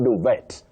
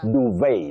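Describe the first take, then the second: First: The final T is pronounced. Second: The final T is silent. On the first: The speaker calls it wrong. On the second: The speaker calls it right. "the T is silent"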